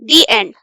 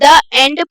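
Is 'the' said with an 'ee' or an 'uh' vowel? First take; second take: ee; uh. First: The word 'the' has a long 'ee' vowel. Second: The word 'the' has a short 'uh' vowel. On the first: The speaker calls it right. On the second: The speaker calls it wrong.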